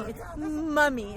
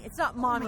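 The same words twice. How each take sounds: First: "Mummy" drawn out, with the British short u. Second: "Mommy" with the American open vowel. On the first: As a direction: say "Mummy" slowly the British way, like "muh-mee". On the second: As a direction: say "Mommy" the American way, like "mah-mee". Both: Shown as a demonstration. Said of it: "It's not Mommy, it's Mummy".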